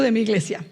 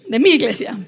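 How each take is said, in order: First: Said in the usual way. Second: "mi" stressed and lengthened, louder. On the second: Real, not acted. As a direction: lean on "mi" to say my church, not his.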